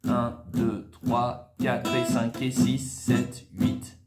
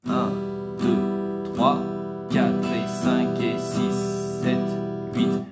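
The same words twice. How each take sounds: First: The counting is at a normal, faster pace. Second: The counting is at a slower pace.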